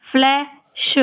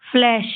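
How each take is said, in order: First: फ्लैश split into fle, pause, shu; sounded out. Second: Said in the usual way. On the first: Shown as a demonstration. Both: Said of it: "इस तरीके से आपको ये सारे शब्द पढ़ने हैं".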